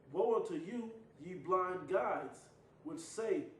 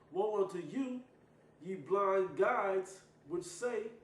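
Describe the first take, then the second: No difference in how they are said.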